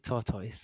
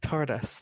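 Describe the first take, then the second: First: The word is said with a British accent. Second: The word is said with an American accent. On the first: "we say tortoise" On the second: "That's very American"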